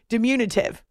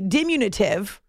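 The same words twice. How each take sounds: First: The stress is on the second syllable. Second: The stress is not on the second syllable. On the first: The speaker calls it right. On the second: The speaker calls it wrong.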